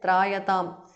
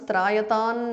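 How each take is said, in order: First: The word ends with an m sound. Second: The word ends with an n sound. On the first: The word stands on its own. "Trayatam ends in Anuswara" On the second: The word joins the next word. "The Anuswara changes to Na"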